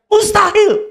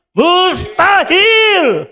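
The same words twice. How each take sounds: First: "Mustahil" said firm and higher, falling hard at the end; firm answer. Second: "Mustahil" shouted, higher and very drawn out; emphatic shout. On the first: Preacher demanding a firm reply, "Mustahil" decisive. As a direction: give "Mustahil" a decisive high falling stamp. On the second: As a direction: stretch "Mustahil" into a long shout. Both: Shown as a demonstration. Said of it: "Jawabnya yang tegas".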